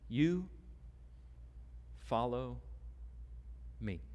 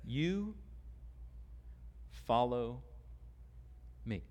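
First: "You", "follow", "me" each set apart by long pauses; preacher speaks to the congregation, each word set apart; slow emphatic words. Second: Preacher repeats Jesus' words to Peter, slow and stressed; emphatic quiet repeat. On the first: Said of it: "simple but far-reaching words". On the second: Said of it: "It's emphatic". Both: Shown as a demonstration.

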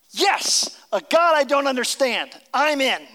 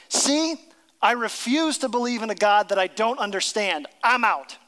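First: Higher and louder, eager and joyful; eager believer. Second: Louder, dismissive refusal; cynic refusing. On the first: Imitating a believer embracing mystery, excited. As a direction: say yes with delight. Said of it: "Other people say". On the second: Imitating a cynic walking away from faith, dismissive. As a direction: toss it off like you're done. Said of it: "throw up their hands and say". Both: Retold or imitated.

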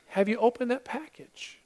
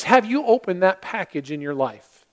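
First: Much softer, a touch higher; soft repeat. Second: Said in the usual way. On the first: Real, not acted. Preacher quietly repeating his question to the congregation, soft. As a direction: ask it again gently, almost to yourself.

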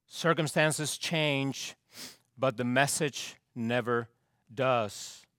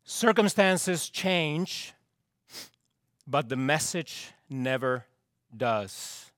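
Both takes have the same delivery.

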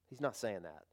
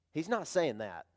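First: Quieter repeat. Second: Said in the usual way. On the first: Shown as a demonstration. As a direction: repeat it softly, letting the voice fall.

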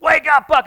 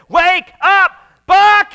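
First: Loud, high shout to wake him; preacher reenacting the prank shout on Buck; retold shout. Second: Loud, high shout right in his face; shouted wake-up call. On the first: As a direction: yell it like jolting a friend awake. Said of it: "So it's kinda like". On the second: Retold or imitated. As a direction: yell it to jolt a sleeper awake. Friends shouting to wake Buck.

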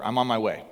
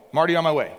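First: Said in the usual way. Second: Louder, higher call across the house. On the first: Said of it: "You could read it as". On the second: Shown as a demonstration. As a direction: call it out like answering from another room. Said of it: "yell out to one of your kids".

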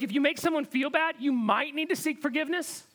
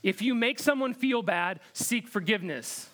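First: Higher pitch, MIGHT stressed, tune left hanging; qualified restatement. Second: Said in the usual way. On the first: Shown as a demonstration. Preacher qualifying the myth he just read, higher with "might" stressed. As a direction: lift the line and lean on "might" as a concession.

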